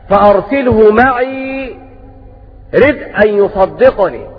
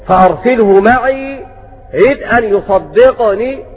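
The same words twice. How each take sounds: The two takes are said the same way.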